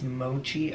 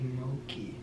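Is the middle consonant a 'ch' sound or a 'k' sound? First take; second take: ch; k. First: The middle consonant is a 'ch' sound. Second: The middle consonant is a 'k' sound. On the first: "I think it's mochi ice cream" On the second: "I interpreted the CH as a K sound"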